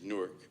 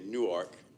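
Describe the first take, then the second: First: It is pronounced the way New Jersey locals say it. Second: It is pronounced the way Delaware locals say it. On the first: "when you go to Jersey, it's Newark" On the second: "in Delaware, you say Newark"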